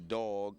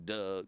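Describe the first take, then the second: First: It is said in a New York accent. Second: It is said in a Baltimore accent.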